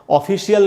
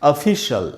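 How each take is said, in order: First: The ending is two syllables, 'shee-al'. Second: The ending is a single syllable, 'shal'. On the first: The speaker calls it wrong. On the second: The speaker calls it right.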